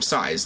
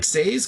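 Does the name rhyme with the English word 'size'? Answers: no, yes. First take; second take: yes; no. First: The name sounds like the English word 'size'. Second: The name is said as spelled, unlike 'size'. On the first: This is how the commentators said it. "even the commentators were calling him Saez. Like, what's the size" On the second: This is how the spelling suggests it. "it looks like Saez because it's S A E S"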